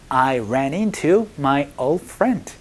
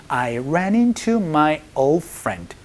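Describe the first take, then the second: No difference in how they are said.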